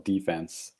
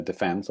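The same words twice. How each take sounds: First: Second word defense as DEE-fence; American stress on DEFENSE. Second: Said in the usual way. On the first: Shown as a demonstration. Offering both ways to Americans, defense stressed DEE-fence. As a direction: hit the first syllable of defense, DEE. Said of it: "change the stress point with the Americans". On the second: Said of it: "change the stress point".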